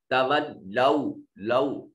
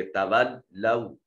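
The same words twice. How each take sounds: First: लौ said as a pure round "lau"; the wrong way to say लौ, with an open pure vowel; wrong pronunciation demo. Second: तवल्लौ with the fatha leaned toward kasra, slow; vowel leaned toward kasra. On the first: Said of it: "इसको लौ नहीं पढ़ेंगे". (लौ को सीधा "लौ" पढ़ना, गलत तरीका) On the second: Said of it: "फतह की आवाज को कसरा की तरफ झुकाएंगे". (तवल्लौ में फतह की आवाज़ कसरा की तरफ झुकाकर) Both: Shown as a demonstration.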